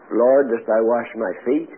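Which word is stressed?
feet. The word feet is stressed. The question is about which body part is washed. "he knew he was at his feet, so he didn't have to ask that"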